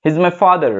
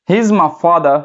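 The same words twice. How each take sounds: First: 'he is my father' with the final r sounded; American 'father', said FAH-der; American pronunciation. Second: 'He is my father' with a silent final r; British 'father', said FAH-duh; British pronunciation. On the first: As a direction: voice the r closing 'father'. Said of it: "American English". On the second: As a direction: leave the r off 'father'. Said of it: "British English". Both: Shown as a demonstration.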